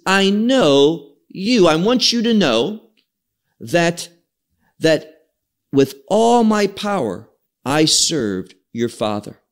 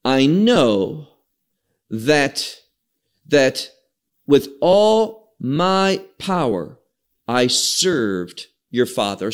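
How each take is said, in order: First: Literal emphatic rendering. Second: Slow, deliberate reading of the verse, each phrase set apart; slow scripture reading. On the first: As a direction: retell the verse with more insistence. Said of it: "So what it literally says is". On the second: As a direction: read the verse slowly with pauses. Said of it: "Look now to verse, verse six". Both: Shown as a demonstration.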